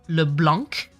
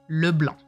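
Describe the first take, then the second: First: The name ends with a clear k sound. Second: The name ends without any k sound. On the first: The speaker calls it wrong. "It's not Le Blanc" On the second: The speaker calls it right. "There's no k at the end"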